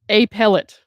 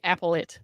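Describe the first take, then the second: First: The stress is on the second syllable. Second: The stress is on the first syllable. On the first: "Sounds like hamster food" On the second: "it's like apple it"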